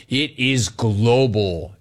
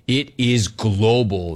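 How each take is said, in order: First: "It is global" repeated slowly; slow emphasis. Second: "it is global" drawn out slowly; slow emphasis. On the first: Host repeating his point slowly for emphasis. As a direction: drag out "It is global" word by word. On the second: Host stressing that the show reaches everywhere, slowly. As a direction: lean on each word of "it is global". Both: Real, not acted.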